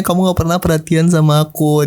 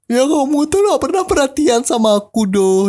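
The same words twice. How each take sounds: First: A hint of the tearful girlfriend; touch of weepy voice; lightly imitated crying. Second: Much higher, slow, whiny sob-voice imitation; high whining imitation of a crying girlfriend; mock crying girlfriend. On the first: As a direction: retell her complaint only mildly whiny. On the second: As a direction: play the weepy girlfriend complaining. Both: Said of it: "dia nangis gitu bilangnya".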